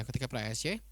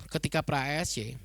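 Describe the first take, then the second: First: The repeat drops low and soft; quieter repeat. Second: Said in the usual way. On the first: Real, not acted. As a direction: tuck the restated phrase away quietly. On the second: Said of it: "ya, ketika pra E S C".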